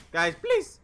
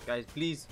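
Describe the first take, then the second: First: Louder desperate plea; being chased. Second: Said in the usual way. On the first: Real, not acted. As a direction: beg loudly, under attack. Begging teammates, said twice.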